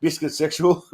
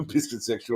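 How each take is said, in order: First: Said in the usual way. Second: Softer, laughing the words out. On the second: Real, not acted. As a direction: cracks up while repeating it. Repeats term, breaking into laugh.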